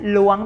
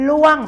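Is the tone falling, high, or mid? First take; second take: high; falling. First: The tone is high and rising. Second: The tone falls from high to low. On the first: "ล้วงเป็นเสียงตรีค่ะ" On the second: "ล่วงเป็นเสียงโท"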